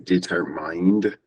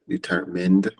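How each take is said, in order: First: The last syllable sounds like 'mine'. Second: The last syllable sounds like 'min'. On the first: The speaker calls it wrong. "we will not say determined" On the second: The speaker calls it right. "you just have the min sound, not mine"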